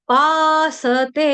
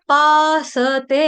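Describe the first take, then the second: Both takes have the same delivery.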